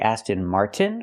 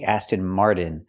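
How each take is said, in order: First: The t in Martin is a clear t. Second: The t in Martin is a quick flap. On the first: The speaker calls it right. "We have to say Aston Martin with a T" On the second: The speaker calls it wrong. "We cannot pronounce it with a fast C. We cannot say"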